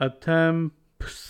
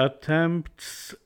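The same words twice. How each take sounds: The two takes are said the same way.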